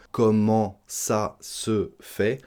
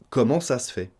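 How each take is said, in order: First: "Comment ça se fait?" slowly with "se" as /sə/; full e pronounced. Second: "Comment ça se fait?" with "se" as a bare /s/, natural pace; e dropped. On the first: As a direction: say the e of "se" clearly and slowly. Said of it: "On le prononce". (prononcez le e de « se », lentement) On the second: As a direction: swallow the e of "se". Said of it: "On mange le E du se". (avalez le e de « se ») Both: Shown as a demonstration.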